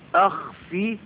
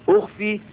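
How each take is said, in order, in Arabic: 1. الكلمة تبدأ بحركة الفتحة. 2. الكلمة تبدأ بحركة الضمة. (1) "وهي بالفتح بمعنىها أظهر" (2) "أخفي بمعنى واري"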